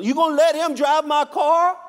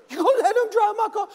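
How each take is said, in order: First: Higher, louder jealous husband; hammed-up husband getting indignant; husband outraged, higher and louder; mock outrage. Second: Much higher, louder, faster comic outrage; hammed-up husband whose voice shoots up in disbelief; husband in a comic squeak, much higher and faster; squeaky mock outrage. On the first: Husband escalates in joke. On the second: Husband repeats, more outraged.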